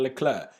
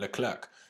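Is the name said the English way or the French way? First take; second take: French; English. First: The name is said with a French accent. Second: The name is said with an English accent. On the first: The speaker calls it right. "I pronounce it French" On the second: The speaker calls it wrong. "why did I call it Leclerc?"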